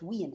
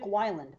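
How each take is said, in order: First: The surname is said as 'Wiend'. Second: The surname is said as 'Weiland'. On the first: The speaker calls it right. "but it's Wiend" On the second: The speaker calls it wrong. "For years I've called him Dick Weiland"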